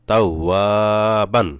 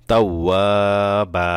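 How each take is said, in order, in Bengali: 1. শব্দটি ন এর শব্দ দিয়ে শেষ হয়। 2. শব্দটি একটি লম্বা আ স্বরধ্বনি দিয়ে শেষ হয়। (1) "বা দুই জবর বান" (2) "এখন এখানে ওয়াকফ করলে হবে কি"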